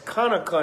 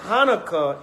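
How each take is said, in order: First: The word is pronounced the ancient Hebrew way. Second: The word is pronounced the common English way. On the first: "in the ancient Paleo Hebrew" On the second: "the English way of pronouncing it"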